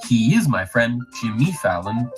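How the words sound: The emphasis falls on unexpected words. The speaker calls it wrong.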